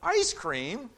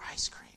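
First: It is said aloud, eagerly. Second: It is whispered quietly.

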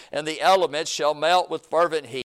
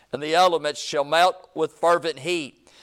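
No difference in how they are said.

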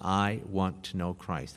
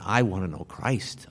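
First: It is said in a flat, bland tone. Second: It is said in a desperate, longing tone. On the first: It is a plain statement of a wish. "I say it somewhat blandly here" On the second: The longing comes from the heart. "say it with desperation"

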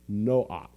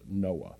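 First: The name ends in a harsh ch sound. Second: The name ends in an open vowel. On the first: This is the original Hebrew form of the name. "In Hebrew, it would be pronounced Noach. And so at the very end would be a hard CH sound" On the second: This is the usual English form of the name. "It's not pronounced Noah in Hebrew"

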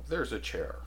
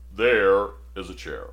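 First: It is said in a plain, ordinary voice. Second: It is said in a deep, robust voice. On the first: The speaker calls it wrong. "No, he'd say it like this" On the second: The speaker calls it right. "he had that very robust voice"

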